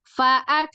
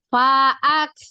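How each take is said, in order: First: The first vowel is kept short. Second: The first vowel is stretched out long. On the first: The speaker calls it right. "Jadi langsung faak" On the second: The speaker calls it wrong. "kita kesalahan memanjangkan di huruf fa di awal"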